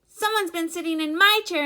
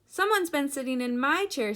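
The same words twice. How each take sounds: First: It is said in a tiny, squeaky voice. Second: It is said in a medium-pitched voice. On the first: "squeaked in his wee little voice" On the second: "in her middle-sized voice"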